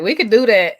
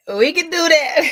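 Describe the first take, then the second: First: Said in the usual way. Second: High laughing repeat. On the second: Real, not acted. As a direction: laugh through the words.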